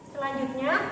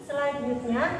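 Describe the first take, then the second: No difference in how they are said.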